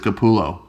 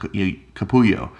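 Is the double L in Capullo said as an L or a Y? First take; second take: L; Y. First: The double L is said as an L sound. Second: The double L is said as a Y sound. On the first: The speaker calls it right. "dude, it's Capullo" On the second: The speaker calls it wrong. "The double L is the Y sound"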